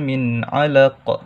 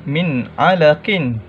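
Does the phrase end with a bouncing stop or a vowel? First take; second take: bouncing stop; vowel. First: The last word ends in a bouncing q. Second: The last word ends with an added vowel and n. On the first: The reciter stops at the end of the verse. "Huruf qalqalahnya di akhir kalimah" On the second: The reciter continues without stopping.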